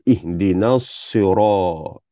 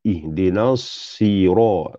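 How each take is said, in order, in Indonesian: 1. Bunyi r itu berat dan tebal. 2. Bunyi r itu berat dan tebal.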